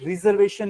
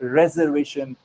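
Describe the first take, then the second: First: The first syllable has a long 'ree' vowel. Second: The first syllable has a short 'reh' vowel. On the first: The speaker calls it wrong. "ये रिजर्वेशन नहीं है, री की ध्वनि नहीं है" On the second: The speaker calls it right. "ये है रिजर्वेशन, रे"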